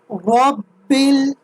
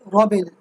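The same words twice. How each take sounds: First: The b sound is held and doubled. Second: The b sound is short and single. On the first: The speaker calls it right. "read the letter with a flat force and with a double sound. That is Robil" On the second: The speaker calls it wrong. "and not like Robil, Robil. That's a that's a straight mistake"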